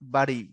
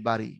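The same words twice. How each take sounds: First: The r-sound is a tap. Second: The r-sound is a trill. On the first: The speaker calls it right. "মানে আগে ডতে চাপ পড়বে তারপরে রতে যাবে" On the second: The speaker calls it wrong. "পরেরটাকে বলি বাড়ি, উচ্চারণ ঠিক নেই"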